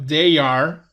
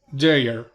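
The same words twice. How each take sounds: First: Said in the usual way. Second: "they are" run together as one syllable, like "they're"; contracted form. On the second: Shown as a demonstration. Teacher showing Spanish-speaking students the contraction, "they are" said as "they're". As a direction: squeeze "they are" into a single quick "they're". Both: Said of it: "Ya no digo they are".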